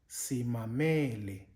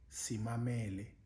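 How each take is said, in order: First: The second-to-last vowel is high in pitch. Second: All the vowels are low in pitch. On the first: Listen to us. "the second last vowel is uh, changed to a high pitch" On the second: We are listening. "all the vowels um, are low pitched"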